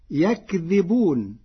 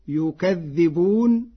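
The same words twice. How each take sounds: First: Said in the usual way. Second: يكذبون said yukadhdhibuna with a doubled dh, slowly; يكذبون with u on the ya and a stressed double dhal; Warsh reading. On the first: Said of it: "فتصير يكذبون". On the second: Shown as a demonstration. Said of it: "بضم الياء وفتح الكاف وتشديد الذال". (يكذبون بضم الياء وتشديد الذال)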